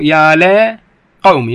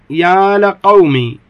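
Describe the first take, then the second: First: "يا لقومي" very slow with the lam clearly opened; slow demo. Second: "يا لقومي" drawn slowly with the lam opened, as "يا لَقومي"; slow poetic recital. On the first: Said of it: "اللام مفتوحة". ("يا لقومي" ببطء شديد بفتح اللام) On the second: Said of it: "قال الشاعر". (إلقاء "يا لقومي" ببطء مع فتح اللام) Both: Shown as a demonstration.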